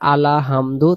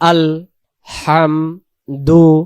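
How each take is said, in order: First: An extra vowel is added after "al". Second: No vowel is added after "al". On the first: The speaker calls it wrong. "অনেকে আমরা যদি পড়ি আলা হামদু, তখন এই লামের জবর হয়ে যাবে" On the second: The speaker calls it right. "তাহলে উচ্চারণ হবে আল"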